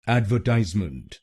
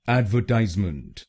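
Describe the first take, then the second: First: The stress is on the third syllable. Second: The stress is on the third syllable.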